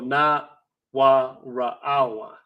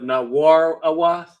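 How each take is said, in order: First: A catch separates ra from awath in the middle. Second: The middle runs smoothly together as war-awath. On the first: "let's pronounce it like that" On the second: "instead of na war awath"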